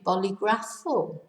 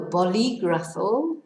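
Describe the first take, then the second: First: The stress falls on a syllable other than 'li'. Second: The stress falls on the syllable 'li'. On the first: The speaker calls it wrong. "otherwise it'd be" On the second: The speaker calls it right. "on the I in the middle of the word to tell us to stress"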